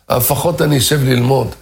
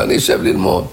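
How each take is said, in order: First: Said in the usual way. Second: Whispered to himself. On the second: Acted. Man repeats resolve to himself.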